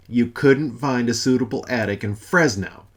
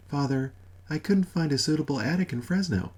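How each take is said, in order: First: Louder outraged repeat of her words; incredulous echo. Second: Said in the usual way. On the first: Acted. God echoing Mother's news, outraged disbelief. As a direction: throw her sentence back at her in disbelief. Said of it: "incredulous echo". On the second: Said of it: "repeated by Father".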